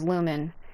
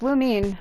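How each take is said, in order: First: The name ends with a short 'men' sound. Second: The name ends with a long 'mean' sound. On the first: The speaker calls it wrong. "I thought it was Lumen" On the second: The speaker calls it right. "but I guess it's Lumine"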